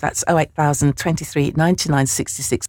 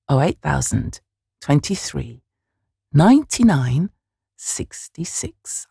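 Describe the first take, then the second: First: The number is said at a quicker pace. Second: The number is said at a slower pace.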